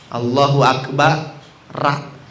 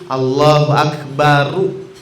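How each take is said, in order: First: The last syllable ends with an open 'a' vowel. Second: The last syllable ends with a rounded 'u' vowel. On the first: The speaker calls it wrong. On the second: The speaker calls it right. "Manyun ya, manyun ya. Domah, domah"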